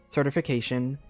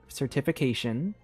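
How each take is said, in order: Both takes have the same delivery.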